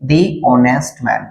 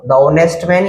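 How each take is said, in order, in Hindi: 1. 'The' को लंबे 'thee' स्वर के साथ बोला जाता है। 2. 'The' को छोटे 'thuh' स्वर के साथ बोला जाता है।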